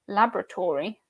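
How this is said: It is said the American way. "U S"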